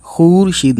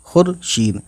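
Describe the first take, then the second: First: "खुरशीद" as khoor-sheed, oo drawn out; wrong long vowel. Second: "खुरशीद" with brief u, khur-sheed; short vowel. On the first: Teacher showing what not to read, long vowel. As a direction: lengthen khoor in खुरशीद as the misreading. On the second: Teacher repeating the right reading, short vowel. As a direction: keep the first syllable of खुरशीद short. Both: Shown as a demonstration. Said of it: "खुरशीद नहीं पढ़ेंगे".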